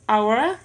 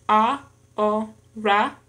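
First: Said in the usual way. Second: Slow "ahora" split as a, ho, ra; syllable by syllable. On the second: Shown as a demonstration. Learner showing three syllables in an exercise, "ahora" syllable by syllable. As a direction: say "ahora" in three separate beats. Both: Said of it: "en tres sílabas".

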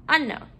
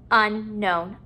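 First: Said in the usual way. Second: "unknown" split after the prefix; parts apart. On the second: Shown as a demonstration. Teacher putting a prefix at the beginning, parts apart. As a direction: pause between "un" and "known". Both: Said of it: "putting a prefix at the beginning".

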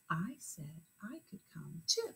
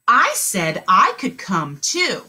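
First: Whispered, much softer. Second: A little slow and clear; slow model sentence. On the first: Teacher repeating the sentence softly, whispered. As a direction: whisper it back. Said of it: "say it back in your head". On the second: Teacher modeling a sentence aloud, slow and clear. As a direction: say it clearly for them. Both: Shown as a demonstration.

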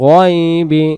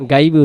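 First: গয়বি with a rounded "goy" vowel; the right way: গয়বি said goy-bi; correct pronunciation. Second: গাইবি said with a plain open "gai" vowel; the mistaken way: গাইবি like gai-bi; wrong pronunciation. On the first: Teacher giving students the correct form: গয়বি. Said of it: "এই শব্দটা হবে গয়বি". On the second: Teacher showing students the wrong way to say it: গাইবি. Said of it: "গাইবি উচ্চারণ হবে না". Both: Shown as a demonstration.

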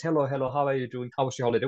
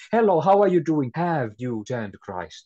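First: Light, quick everyday greeting; casual small talk. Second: Bold greeting. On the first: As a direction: toss it off like polite chit-chat. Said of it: "if we speak like that". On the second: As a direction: greet them boldly, then ask. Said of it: "If we speak like this to them". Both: Retold or imitated.

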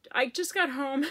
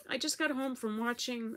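First: Louder, laughing as she says it; a real teary laugh breaking in; laughing through tears. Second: Said in the usual way. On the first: Real, not acted. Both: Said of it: "It's so silly".

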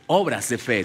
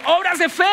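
First: Said in the usual way. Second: "Obras de fe" called out high and loud to the congregation; called out to repeat. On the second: Shown as a demonstration. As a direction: shout "Obras de fe" so they answer back. (la congregación responde: "Obras de fe" gritado en alto) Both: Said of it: "Diga conmigo".

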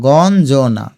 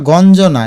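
First: গঞ্জনা slowly as gon, jo-na; lower, slow গঞ্জনা with a gap; broken into syllables. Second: Said in the usual way. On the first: Shown as a demonstration. Teacher shows students the parts, গঞ্জনা slowly split. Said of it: "এই দেখো". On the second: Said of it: "এটা বলি আমরা".

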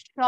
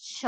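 First: Said in the usual way. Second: "โช" in the low Mandarin third tone. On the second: Shown as a demonstration. Teacher shows students the tone, "โช" in Mandarin third tone. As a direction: sound out "โช" as a third-tone syllable. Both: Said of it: "วรรณยุกต์เสียงสามเป็น".

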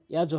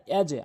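First: "ইয়াজও" with the j released into an o; wrong rounded bounce. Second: "ইয়াজে" with a short e bounce after the j; downward qalqalah. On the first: Teacher shows what to avoid, rounded release on "ইয়াজও". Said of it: "ইয়াজও হবে না". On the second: Teacher gives the correct take, downward push on "ইয়াজে". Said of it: "নিচের দিকে ধাক্কা হবে". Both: Shown as a demonstration.

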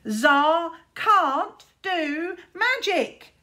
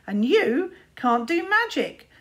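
First: Slow, high, loud sing-song jeer; mocking singsong taunt. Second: Louder, higher, drawn-out jab; plain taunt before the singsong; spoken taunt. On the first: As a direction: chant it like a playground bully. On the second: Acted. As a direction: deliver the insult flatly cruel. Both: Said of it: "taunted Luther".

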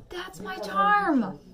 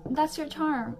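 First: Slow, high, loud drawn-out cry; exaggerated proud exclamation. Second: Higher, louder mock encouragement; animated quoted reassurance. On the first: Echoing friends' compliment about herself, hammed-up proud exclamation. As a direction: belt it out, stretching the last word. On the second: Quoting people in her life, animated reassurance. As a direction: quote friends with lively emphasis.

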